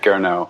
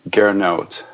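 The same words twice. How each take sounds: First: The name ends without a T sound. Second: The name ends with an audible T sound. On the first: This is the common way people say it. "no T, long O pronunciation. Most people say it that way" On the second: This is how the name is meant to be said. "with the T pronunciation"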